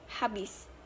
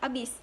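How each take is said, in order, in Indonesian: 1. Kata ini diucapkan secara baku. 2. Kata ini diucapkan secara tidak baku. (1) "sedangkan dalam bahasa baku habis" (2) "dalam bahasa tidak baku adalah abis"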